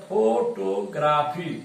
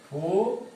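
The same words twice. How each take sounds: First: Said in the usual way. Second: "फोटोग्राफी" split by long pauses; syllable by syllable. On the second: Shown as a demonstration. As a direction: break "फोटोग्राफी" into फो, टो, ग्रा, फी. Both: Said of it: "तीन इसमें भी आ रहा है".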